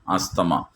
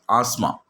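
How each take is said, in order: First: The 'th' sound is clearly pronounced. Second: The 'th' sound is left out. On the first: The speaker calls it wrong. "some people are pronouncing asthma" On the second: The speaker calls it right. "in that T uh, H is silent"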